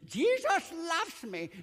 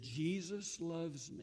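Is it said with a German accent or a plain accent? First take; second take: German; plain. First: It is said with a heavy German accent. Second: It is said in the speaker's plain accent.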